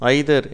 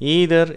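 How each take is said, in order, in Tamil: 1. இது பிரிட்டிஷ் உச்சரிப்பில் சொல்லப்படுகிறது, 'eye-ther' போல. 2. இது அமெரிக்க உச்சரிப்பில் சொல்லப்படுகிறது, 'ee-ther' போல. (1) "ஆங்கிலேயர்கள் இதே வார்த்தையை ஐதர் என்று உச்சரிக்கிறார்கள்" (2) "அமெரிக்கர்கள் இந்த வார்த்தையை ஈதர் என்று உச்சரிக்கிறார்கள்"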